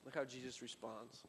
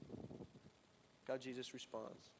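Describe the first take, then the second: First: Said in the usual way. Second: Drawn out slowly, much softer; slow hushed emphasis for the congregation; slow, hushed repeat. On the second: Shown as a demonstration. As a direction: let it sink in slowly and quietly.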